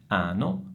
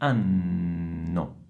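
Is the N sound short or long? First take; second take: short; long. First: The N sound is short and single. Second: The N sound is held long and doubled. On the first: The speaker calls it wrong. "non è ano" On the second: The speaker calls it right. "ma è anno. Dovete prolungare questo suono"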